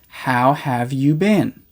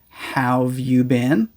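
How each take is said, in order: First: The word 'have' is fully pronounced. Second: The word 'have' is shortened onto 'how'.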